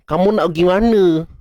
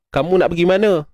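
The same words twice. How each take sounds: First: The voice has a strong nasal twang. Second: The voice is clear without nasal twang. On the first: This person naturally speaks with a nasal voice. "memang bercakap pun memang ada aura-aura dengung tu" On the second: This person speaks with a normal voice. "Ini elok cakap suara pure"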